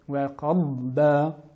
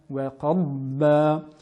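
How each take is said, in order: Both takes have the same delivery.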